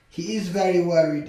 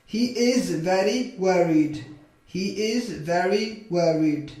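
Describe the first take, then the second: First: Said in the usual way. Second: Slow, stretched-out model sentence; slow modelling. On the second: Shown as a demonstration. Teacher models a sentence for English learners, slowly. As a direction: draw the words out for learners.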